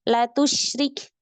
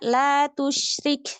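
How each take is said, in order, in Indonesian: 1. Vokal pertama dibaca pendek. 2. Vokal pertama dibaca panjang. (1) "ia baca pendek"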